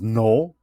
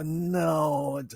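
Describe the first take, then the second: First: It is said bluntly and firmly. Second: It is said hesitantly and softly. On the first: The refusal is directed at a child. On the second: The refusal is directed at a boss.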